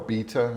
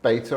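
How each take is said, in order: First: The word is said in a British accent. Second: The word is said in a non-British accent.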